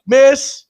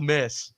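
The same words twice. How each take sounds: First: High, loud heckle imitating the buddy; sudden mock shout, pitched way up; retold yell. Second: Said in the usual way. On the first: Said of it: "That's what he yelled". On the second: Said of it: "He yelled".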